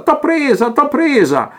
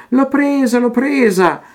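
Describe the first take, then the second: First: Higher mock cry of triumph in an altered voice; triumphant cry. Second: High excited child's cry, mock shouted; gleeful cry. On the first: Armando the painter crowing over Teresa, high and triumphant. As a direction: crow it out like a painter grabbing his prize. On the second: Teresa crying to herself over the caught butterfly, high and gleeful. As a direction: squeal it like a girl catching a butterfly. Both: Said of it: "gridava distesa".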